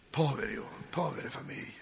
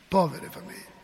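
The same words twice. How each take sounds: First: Much softer, sinking sorrow; hushed pity. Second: Said in the usual way. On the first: Shown as a demonstration. Priest mourning workers' families, hushed and sorrowful. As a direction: let the pity drop almost to nothing. Preacher pities families without work.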